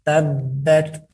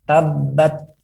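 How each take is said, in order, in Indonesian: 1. Huruf t berakhir dengan hembusan udara yang terdengar. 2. Huruf t berakhir tanpa hembusan udara yang terdengar. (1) "ada suara udara yang keluar" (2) "bukan tabat yada"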